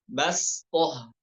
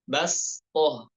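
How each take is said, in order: The two takes are said the same way.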